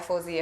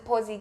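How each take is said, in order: First: The name starts with an f sound. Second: The name starts with a p sound. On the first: The speaker calls it wrong. "So many people actually pronounce it wrong" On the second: The speaker calls it right. "that's what my handle is"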